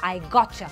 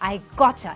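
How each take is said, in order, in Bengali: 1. t এবং y মিশে ch হয়ে যায়। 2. t এবং y মিশে ch হয়ে যায়।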